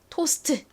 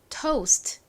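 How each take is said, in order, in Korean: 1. 한국식 발음으로 세 음절입니다. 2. 영어식 발음으로 한 음절입니다. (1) "한국식으로는 보통 우 발음을 안 쓰고 요렇게 씁니다" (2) "합하면 toast"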